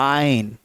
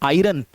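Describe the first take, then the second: First: The r sound is very faint. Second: The r sound is clearly pronounced. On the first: The speaker calls it right. "बहुत हल्की सी आर की आवाज निकलेगी" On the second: The speaker calls it wrong. "जिसको हम लोग पढ़ते हैं आयरन"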